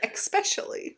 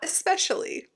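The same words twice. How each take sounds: First: It starts with an added 'x' sound. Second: It starts with a plain 'esp' sound. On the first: "They'll say especially. where did the X come from in that word?" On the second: "Not especially"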